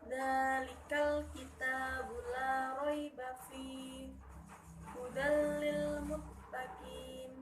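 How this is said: It runs on, then pauses after 'fihi'.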